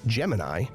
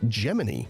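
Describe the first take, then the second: First: It is the usual pronunciation of the constellation. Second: It is the pronunciation used inside the space agency. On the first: This is the name of the star pattern. "the constellation is pronounced Gemini" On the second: This is the name of the spaceflight program. "the NASA program was usually pronounced Gemini within the space agency"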